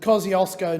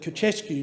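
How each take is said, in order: First: The name is said with an anglicized pronunciation. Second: The name is said with a Polish pronunciation. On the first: "which I have absolutely mispronounced" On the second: "they, of course, would call it the Koczewski"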